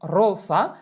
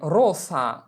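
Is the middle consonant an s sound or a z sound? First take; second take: s sound; s sound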